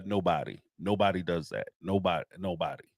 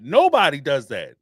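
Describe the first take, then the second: First: Low and soft, trailing away; muttered. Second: Louder, punching it out; emphatic. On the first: Repeating the point to himself, quiet and lower. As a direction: let it die off under your breath. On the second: Ranting about reality stars crying on camera, emphatic and loud. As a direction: slam the point home. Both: Real, not acted.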